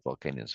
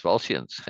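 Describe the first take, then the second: First: "Volcanians" with a k sound mid-word; "Volcanians" as vol-KAY-nians; mistaken pronunciation. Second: "Volscians" in two beats, VOL-shuns; "Volscians" lower in pitch, as vol-shuns; corrected pronunciation. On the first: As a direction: say "Volcanians", the misreading, low and soft. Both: Shown as a demonstration. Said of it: "not Volcanians".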